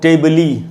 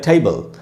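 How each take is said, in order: First: The final e is pronounced as ee. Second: The word ends on the l consonant. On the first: The speaker calls it wrong. "इसको हम टेबली या टेबले ऐसे तो नहीं बोलते" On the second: The speaker calls it right. "हम बोलते हैं टेबल। तो हमने ई का उच्चारण नहीं किया।"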